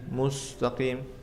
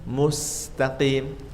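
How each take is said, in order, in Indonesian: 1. Bunyi s itu tebal. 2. Bunyi s itu tipis. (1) "Kalau enggak senyum nanti tebal menjadi seperti ini" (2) "biar mau sempurna harus senyum"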